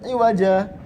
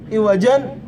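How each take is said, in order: First: The word ends on a vowel without n. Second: The word ends with an added n sound. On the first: The speaker calls it right. "Iwaja tetap" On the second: The speaker calls it wrong. "Orang ada yang nyangka kalau di saktah baca gimana? ... Enggak, salah"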